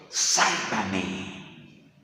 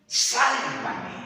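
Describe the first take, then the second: First: Low, drawn-out plea for rescue; retold cry for help, sunk low; Peter's plea. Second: Higher-pitched retold cry for help; raised, dramatised call for rescue; Peter's plea. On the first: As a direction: draw the plea out, pitched well down. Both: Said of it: "qué le dice Pedro al maestro".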